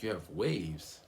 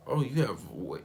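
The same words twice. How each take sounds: First: Said in the usual way. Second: High, loud surprised exclamation; surprised host mom. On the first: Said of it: "she's like". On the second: Retold or imitated. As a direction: gasp it out in wonder. Host mom notices waves.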